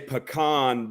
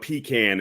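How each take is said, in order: First: It is said the southern way. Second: It is said the northern way. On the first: The speaker calls it right. "down here we say pecan" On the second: The speaker calls it wrong. "that's how they say that up north"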